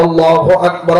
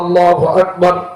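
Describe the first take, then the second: The two takes are said the same way.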